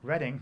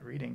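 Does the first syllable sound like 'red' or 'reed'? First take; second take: red; reed. First: The first syllable rhymes with 'red'. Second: The first syllable rhymes with 'reed'. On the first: The speaker calls it right. "in a city called Reading" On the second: The speaker calls it wrong. "not Reading"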